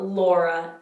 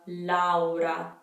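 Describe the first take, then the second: First: The vowels are blended into one sound. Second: Each vowel is pronounced as its own sound. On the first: The speaker calls it wrong. "it's not Laura" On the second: The speaker calls it right. "Each vowel is pronounced individually"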